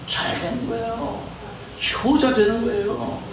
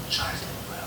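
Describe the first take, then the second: First: Rising exclamation. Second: Hushed reveal. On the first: Second take, exclaimed. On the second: First take, whispered. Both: Real, not acted.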